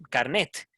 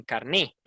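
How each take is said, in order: First: Carnet ending in an audible t, "kar-NET"; sounded final T. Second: Carné ending on the open vowel, "kar-NEH"; dropped final T. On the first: Teacher showing one accepted form, carnet as "kar-NET". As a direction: close carnet on a clear t. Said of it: "Unas personas dicen carnet". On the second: Teacher showing the other accepted form, carné as "kar-NEH". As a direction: say carné stressed at the end, no t. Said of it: "otras dicen carné". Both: Shown as a demonstration.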